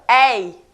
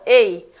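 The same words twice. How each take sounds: First: The first vowel is pronounced more open. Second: The first vowel is pronounced more closed. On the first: "A outra é mais aberta" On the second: "Uma é mais fechada"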